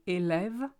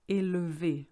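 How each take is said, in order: First: "élève" with open È sounds; French élève. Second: "élevé" with closed É sounds; French élevé. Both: Shown as a demonstration. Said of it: "élève versus élevé".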